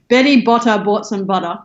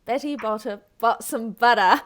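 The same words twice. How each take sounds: First: "Betty Botter bought some butter" with crisp Australian T's; native Australian reading. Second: "Betty Botter bought some butter" with T's and no R on "butter"; imitating Australian accent. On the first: Guest models the Australian line. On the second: Teacher echoes the guest's Australian line. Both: Shown as a demonstration. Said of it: "let me try one word at a time".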